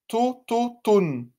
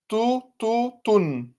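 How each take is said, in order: Both takes have the same delivery.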